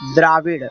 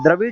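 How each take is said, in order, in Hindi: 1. पहला स्वर लंबा है। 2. पहला स्वर छोटा है। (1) "द्राविड़ है" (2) "द्रविड़ नहीं है"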